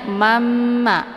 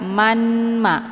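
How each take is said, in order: First: The n merges into a long nasal double m. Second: A distinct n is pronounced before the m. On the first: The speaker calls it right. "Jadi bacanya mamma" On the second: The speaker calls it wrong. "bukan manma"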